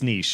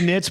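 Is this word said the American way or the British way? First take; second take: British; American. First: The word is said with a British pronunciation. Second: The word is said with an American pronunciation. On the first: "like when I have Brits on the podcast, it's niche" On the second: "I say niche, but I think that's fairly American"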